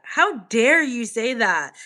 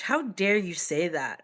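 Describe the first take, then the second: First: Slower, louder offended repeat; mock outrage. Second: Said in the usual way. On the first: Answering a viewer's comment, mock outraged and louder. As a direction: play up the outrage, slowly. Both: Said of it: "mock offense at comment".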